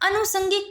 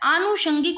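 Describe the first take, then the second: First: The word begins with a short 'a' vowel. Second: The word begins with a long 'aa' vowel. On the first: The speaker calls it wrong. "अ नहीं होता" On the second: The speaker calls it right. "आ होता है"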